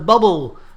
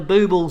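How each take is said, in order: First: The first vowel is a short 'uh' sound. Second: The first vowel is a long 'oo' sound. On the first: The speaker calls it wrong. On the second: The speaker calls it right.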